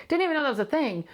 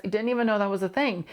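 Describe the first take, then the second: First: Much higher, peaking on Didn't; mock amazement at herself; amused disbelief. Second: Said in the usual way. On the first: Real, not acted. Host to listeners, amused disbelief.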